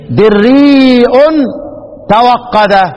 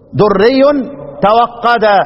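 First: The first vowel is 'i' and a glottal stop follows. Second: The first vowel is not 'i' and there is no glottal stop. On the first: "كسر الدال وله الهمز" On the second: "لا ملوش همز وما بيكسرش الدال"

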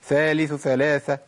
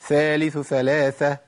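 First: The th sounds are rushed together quickly. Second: The th sounds are rushed together quickly.

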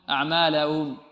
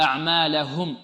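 First: The final h sound is weak and barely heard. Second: The final h sound is pressed and clearly heard. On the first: The speaker calls it wrong. "لعل بعض الطلاب يقول" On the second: The speaker calls it right. "لابد أن تضغط على الهاء"

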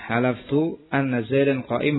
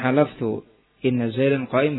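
First: The word after halaftu begins with an a vowel. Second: The word after halaftu begins with an i vowel. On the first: It reports that one swore that the fact holds. "Adapun kalau dibaca dengan fathah" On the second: The clause is the content of the oath itself. "Kalau dibaca dengan kasrah"

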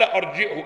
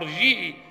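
First: The middle consonant is a clear glottal stop. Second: The middle consonant is a smooth y sound. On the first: "اذا حقق الهمزه" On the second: "ها ارجيه مثل جيت"

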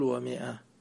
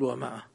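First: No long a vowel follows the m. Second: A long a vowel follows the m. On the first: The speaker calls it right. "قول ومئة" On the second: The speaker calls it wrong. "لا تقول ومئة"

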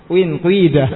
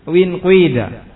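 Both takes have the same delivery.

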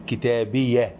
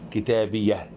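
First: The word ends with a soft h sound. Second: The word ends with a soft h sound.

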